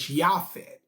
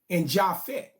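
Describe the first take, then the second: First: The name begins with a Y sound. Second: The name begins with a J sound. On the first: The speaker calls it right. "the correct pronunciation of his son's name is Yaphet" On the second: The speaker calls it wrong. "in the Bible they tell you"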